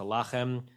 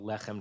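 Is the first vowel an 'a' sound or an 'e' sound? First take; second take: a; e. First: The first vowel is an 'a' sound. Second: The first vowel is an 'e' sound. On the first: The word stands at a major pause in the verse. "it's a pausal" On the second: This is the ordinary form of the word. "It's like how lechem turns to lachem"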